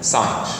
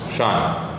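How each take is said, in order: First: The word begins with an 's' sound. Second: The word begins with a 'sh' sound. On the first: "in some universities they just pronounce it as sine" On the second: "this is pronounced as shine"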